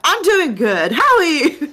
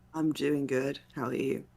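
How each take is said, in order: First: It is said with much more energy. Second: It is said with little energy. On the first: The speaker calls it right. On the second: The speaker calls it wrong.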